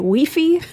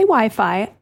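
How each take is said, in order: First: The vowels sound like 'wee' and 'fee'. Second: The vowels sound like 'why' and 'fye'. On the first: This is how it is said in other countries. The speaker calls it wrong. "They say weefy" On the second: This is how it is said locally. The speaker calls it right. "Here, we say Wi-Fi"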